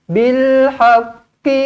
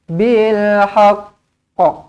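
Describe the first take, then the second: First: The word runs straight on with a final vowel. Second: The word ends with a full stop on the doubled q. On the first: "Kalau sambung-sambung macam biasa" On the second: "Kalau nak berhenti dekat sini"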